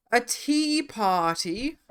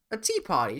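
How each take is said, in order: First: Posh tea party voice. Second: Said in the usual way. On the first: Pretend. Reading tier item in posh voice.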